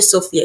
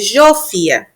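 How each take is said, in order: First: The name begins with an s sound. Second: The name begins with a zh sound. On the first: The speaker calls it wrong. "aqui não chama de Sofia" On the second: The speaker calls it right. "chama de Jofia"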